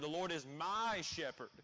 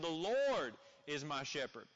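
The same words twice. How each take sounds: First: The stress falls on the word 'my'. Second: The stress falls on the word 'is'. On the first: He belongs to me personally, so I am saved. "you're placing an emphasis on the word "my" there" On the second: God is alive and present right now. "placing emphasis on the simple fact that, man, you have a God who lives"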